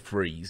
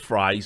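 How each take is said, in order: First: The vowel sounds like in 'freeze'. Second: The vowel sounds like in 'fries'. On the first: "or Freeze" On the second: "Peter Fries or Freeze. I'm not sure how it's pronounced"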